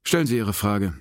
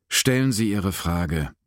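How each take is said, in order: First: Said in the usual way. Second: Slow, emphatic demand; insistent demand. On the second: A narrator's reading. Baxter pressing an unsettled Sinclair, insistent demand. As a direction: press each word slowly and firmly. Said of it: "verlangte Baxter".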